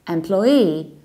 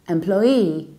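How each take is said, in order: Both takes have the same delivery.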